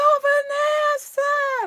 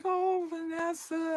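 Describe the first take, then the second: First: Very high, loud, drawn-out holler; excited call. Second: High, slow, soft moan of a name; pained greeting. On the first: Recovered manager spots Vanessa across the room, excited call. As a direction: call the name out in imitated elation. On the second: Limping manager greets Vanessa at her desk, pained. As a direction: draw it out wearily, imitating someone in pain. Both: Retold or imitated.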